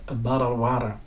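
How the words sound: It is said with an American accent. "en américain, on va plutôt avoir quelque chose qui ressemble à"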